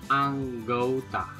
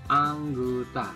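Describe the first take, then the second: The two takes are said the same way.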